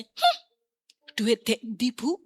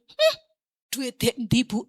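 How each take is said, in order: First: "Hmm" tinggi melengking, lalu nada meremehkan; meniru teman mengejek. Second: "Hmm" tinggi, lalu nada mengejek sambil tertawa; teman sambil tertawa. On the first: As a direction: bayangkan teman yang menyindir. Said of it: "paling dia akan berkata". (tiruan teman yang mengejek) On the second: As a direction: tiru teman yang pergi sambil mengejek. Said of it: "Dia sambil ketawa pergi". (ejekan teman sambil tertawa) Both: Retold or imitated.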